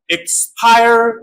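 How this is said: It is said in an American accent.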